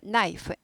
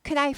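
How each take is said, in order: First: The initial k sound is silent. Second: The initial k sound is pronounced. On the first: The speaker calls it right. "K가 묵음이다" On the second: The speaker calls it wrong. "크나이프 하지 않고"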